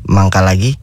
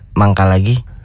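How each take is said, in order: First: It is said in a flirty tone. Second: It is said as if with stomach pain.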